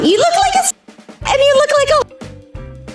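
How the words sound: It is said in a Mickey Mouse voice.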